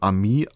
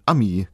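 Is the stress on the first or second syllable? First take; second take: second; first. First: The stress is on the second syllable. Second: The stress is on the first syllable. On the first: It means friend. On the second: It means a nasty person.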